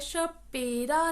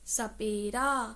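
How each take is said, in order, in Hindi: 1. शब्द sh की आवाज़ से शुरू होता है। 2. शब्द s की आवाज़ से शुरू होता है। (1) "शपेरा या शपेरा नहीं बोल रहे" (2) "अब हम सपेरा बोलेंगे"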